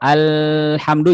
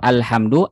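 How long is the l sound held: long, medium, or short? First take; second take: long; short. First: The l sound is held far too long. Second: The l sound is rushed and very short. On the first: "juga tidak boleh terlalu kelamaan" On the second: "jangan terburu-buru"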